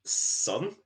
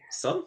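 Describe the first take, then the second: First: Said in the usual way. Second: "Sun?" shot up very high in disbelief; incredulous squeak. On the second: Real, not acted. Teasing a friend who told him to stare at the sun, incredulous high squeak. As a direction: echo the word like it's absurd.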